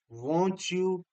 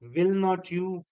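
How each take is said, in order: First: The words are merged into a contraction. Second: Each word is said separately in full. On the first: "We pronounce it as won't you" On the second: "Or simply we can say will not you"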